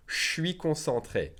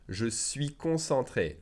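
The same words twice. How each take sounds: First: Je suis blended into shwi. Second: Je suis said slowly with every sound; slow full form. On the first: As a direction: slur je suis into one sound. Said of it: "blend the S and the J together". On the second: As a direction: spell out je suis. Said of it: "we naturally drop the E". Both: Shown as a demonstration.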